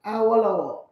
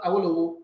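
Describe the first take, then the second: First: Awolowo with open o's, a-wo-la-wo, falling at the end; correct Yoruba pronunciation. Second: Awolowo starting with an "eye" sound, eye-wi-lo-wo; spelling pronunciation. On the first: Man correcting the MC in public, says Awolowo properly. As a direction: say Awolowo the owner's way, each vowel open. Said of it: "my name is pronounced". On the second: Man mimicking the MC's mistake, says Awolowo as spelled. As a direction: read Awolowo the way it looks on paper. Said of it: "not Awolowo". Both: Retold or imitated.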